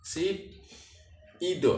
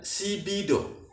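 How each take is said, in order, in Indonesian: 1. Suku katanya dipisah dengan bunyi p. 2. Suku katanya disambung dengan bunyi b.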